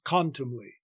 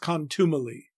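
First: Three syllables, with the stress on the first syllable. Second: Four syllables, with the stress on the second syllable. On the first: The speaker calls it right. "3 syllables with the main stress on the first syllable" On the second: The speaker calls it wrong. "gave contumely 4 syllables with the stress on the second syllable as in modern speech"

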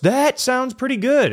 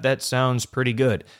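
First: The voice is lively, with a varied pitch. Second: The voice is flat, with little pitch change. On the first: The speaker sounds engaged and friendly. The speaker calls it right. "make an inflection in your voice" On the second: The speaker sounds disengaged. The speaker calls it wrong. "Instead of, yep"

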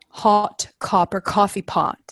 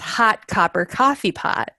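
First: The vowels are said with rounded lips. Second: The vowels are said with unrounded lips. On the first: "one of the vowel sounds that I could not make was all, as in like" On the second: "the way I said it was"

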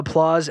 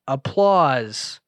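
First: The word is said at a normal pace. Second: The word is said slowly and drawn out. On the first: "I'll just read what's on my screen" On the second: "this is how he was talking in the movie. ... It was drawn out. It was slow"

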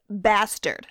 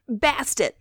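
First: The name ends with an 'ard' sound. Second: The name ends with an 'et' sound. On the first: The speaker calls it wrong. "they said it's pronounced bastard. At least his accent sounded like that, but that's not how you say it" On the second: The speaker calls it right. "That's my best guess"

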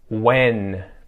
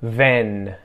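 First: The word starts with a W sound. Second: The word starts with a V sound. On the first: The speaker calls it right. "five words that start with the W sound" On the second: The speaker calls it wrong. "mispronounce it with a V"

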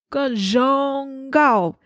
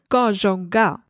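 First: The middle syllable is drawn out long. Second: The middle syllable is said short and plain. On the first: It expresses captivated, sincere admiration or flirtation. "when you stretch out the zhong part" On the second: It is a simple compliment on someone's looks. "To say you are pretty"

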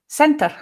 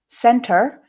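First: The final r is a quick tap. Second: The final r is a post-alveolar sound. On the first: "center with a tap" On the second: "center in the post-alveolar space, you can hear that r coming through"

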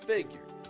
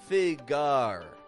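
First: The second syllable is weak and reduced. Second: The second syllable is as strong as the first. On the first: The speaker calls it right. "strong, weak" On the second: The speaker calls it wrong. "then you're getting strong, strong"

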